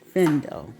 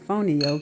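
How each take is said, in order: First: The word is said as fendo. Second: The word is said as fonio. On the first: This is how it is said in Mandinka. "in Mandinka it's pronounced fendo" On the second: This is how Americans say it. "That is the way the Americans pronounce it"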